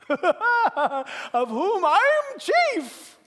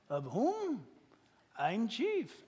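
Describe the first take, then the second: First: It is said in a happy, joyful tone. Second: It is said in a plain, neutral tone.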